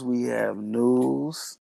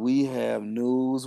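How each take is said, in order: First: Stretched out, rising at the end; milk every word of it; very slow announcement. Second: Slowly drawing out each word; slow announcement. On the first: Teasing the listeners with news, drawn out and rising. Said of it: "repeated announcement, slower". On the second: Hyping the podcast crowd, slow and grand. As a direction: build it up like big news. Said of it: "announcing news, drawn out". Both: Real, not acted.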